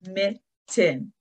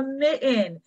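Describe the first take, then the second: First: "Mitten" split as mit, ten; two distinct beats on "Mitten" with a gap; clapped-out syllables. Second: Said in the usual way. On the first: Shown as a demonstration. Teacher clapping it out with children, "Mitten" in two parts. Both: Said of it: "Let's clap it out".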